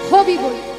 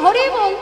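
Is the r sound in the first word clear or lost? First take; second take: lost; clear. First: The r sound in the first word is lost. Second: The r sound in the first word is clear. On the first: An old man with no teeth cannot say it. The speaker calls it wrong. "উচ্চারণ হয়ে যায় হবি বল" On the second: A singer chants the name properly. The speaker calls it right. "কীর্তনিয়া যখন বলবে"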